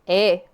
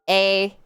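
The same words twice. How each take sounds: First: The vowel is plain and further back. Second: The vowel is plain and further forward. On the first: "you move it back in your mouth" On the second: "if you remove that diphthong, it's more of an a"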